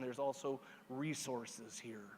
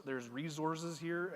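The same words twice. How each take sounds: First: "resources" said slowly with a soft s, REE-sorses; standard pronunciation. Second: "resources" said slowly with a z sound, REE-zorses; alternate pronunciation. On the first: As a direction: say "resources" carefully, hissing s in the middle. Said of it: "pronounce the word resource as resources". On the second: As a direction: draw out "resources" with a buzzing z in the middle. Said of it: "for those of you who s-, pronounce". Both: Shown as a demonstration.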